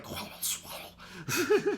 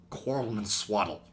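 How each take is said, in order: First: Much higher, slow squeaky garble; a mock Bumblebee whisper-squeak. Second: Whisper imitation. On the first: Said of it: "It comes out like". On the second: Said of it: "the sound that he makes when he whispers".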